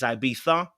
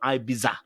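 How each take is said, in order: First: The ending does not sound like 'pizza'. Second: The ending sounds like 'pizza'. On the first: The speaker calls it right. "It's Ibiza" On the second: The speaker calls it wrong. "not Ibiza. We don't pronounce Ibiza. It's not a pizza"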